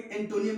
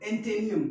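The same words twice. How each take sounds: First: एंटोनियम said with "toh" in the middle; wrong pronunciation. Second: एंटेनियम said firmly and louder, with "tay"; corrected pronunciation. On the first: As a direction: say एंटोनियम as en-TO-niyom. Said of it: "क्या नहीं पढ़ेंगे?". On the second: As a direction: say एंटेनियम loudly as en-TAY-niyom. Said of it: "क्या पढ़ेंगे?". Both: Shown as a demonstration.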